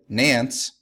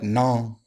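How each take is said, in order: First: The name rhymes with the English word pants. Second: The name does not rhyme with pants. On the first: The speaker calls it wrong. "incorrectly said, rhymes with pants" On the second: The speaker calls it right. "correctly said is more like Nantes"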